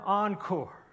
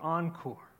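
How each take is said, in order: First: The word is said as a loud shout. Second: The word is said louder, at moderate volume. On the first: The call reaches its climax. "And then a shout like the world had never heard" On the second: The call is growing. "And then louder on the second day"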